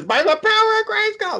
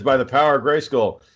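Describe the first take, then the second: First: Mock excited yell. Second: Said in the usual way. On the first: Imitating Roger running in as He-Man, high mock yell. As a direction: squeal it like an overexcited fan. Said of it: "just yelling and shit". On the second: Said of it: "and he says".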